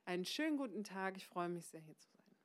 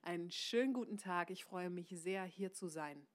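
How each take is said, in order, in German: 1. Der Satz läuft aus, ohne klares Ende. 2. Der Satz endet klar auf dem letzten Wort. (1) "Also nicht" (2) "der Satz ist nach sein zu Ende"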